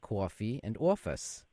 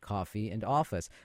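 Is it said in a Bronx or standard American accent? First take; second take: Bronx; standard. First: It is said in a Bronx accent. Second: It is said in a standard American accent.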